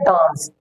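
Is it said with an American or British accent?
British. It is said with a British accent.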